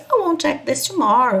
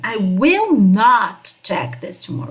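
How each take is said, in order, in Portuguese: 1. As palavras são ligadas numa contração. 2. Cada palavra é dita separadamente e com ênfase. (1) "Ou simplesmente" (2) "bem separadamente as palavras"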